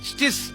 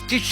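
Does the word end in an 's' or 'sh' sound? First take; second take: s; sh. First: The word ends with an 's' sound. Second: The word ends with an 'sh' sound. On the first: This is how locals usually say it. "സ്റ്റിസ് എന്ന് നമ്മൾ പറയും" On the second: This is the original foreign pronunciation. "സ്റ്റിഷ് എന്നാണ് അത് സ്വീഡിഷ് ടേമിൽ ഉച്ചരിക്കുന്നത്"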